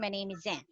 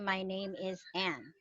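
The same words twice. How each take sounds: First: The words are linked into one connected sound. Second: Each word is said separately, word per word. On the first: It sounds American. The speaker calls it right. "like this" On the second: It does not sound American. The speaker calls it wrong. "you don't sound like an American if you do that"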